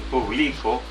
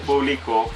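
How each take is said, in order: First: The stress is on the middle syllable. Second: The stress is on the last syllable. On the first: "que es una palabra grave" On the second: "que es una palabra aguda"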